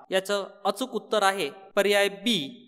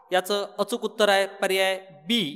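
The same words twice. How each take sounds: No difference in how they are said.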